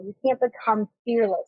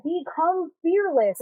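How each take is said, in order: First: Said in the usual way. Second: Slow, higher-pitched imitation of advice-givers; quoted slogan. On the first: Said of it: "I'm like". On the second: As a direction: draw it out as other people's lofty advice. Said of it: "a lot of people will be like".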